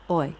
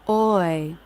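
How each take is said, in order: First: It is lower, flatter, quieter and quicker. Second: The pitch curves up, then down.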